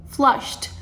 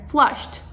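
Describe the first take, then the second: The two takes are said the same way.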